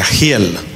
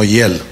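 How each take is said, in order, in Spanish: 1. El nombre empieza con un sonido J áspero y gutural. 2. El nombre empieza con un sonido suave parecido a una vocal. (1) "su nombre se pronuncia Giel" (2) "no hiel"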